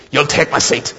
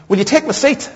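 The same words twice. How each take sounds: First: Lady who won't take no; imitated firm insistence. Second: High-pitched lady offering her seat; imitated polite offer. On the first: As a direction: make the offer an order, not a question. Lady insists after a refusal. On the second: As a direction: offer it as a question, voice lifted high.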